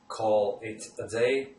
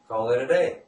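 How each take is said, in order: First: Each word is said separately, not linked. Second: The words are linked smoothly into one unit.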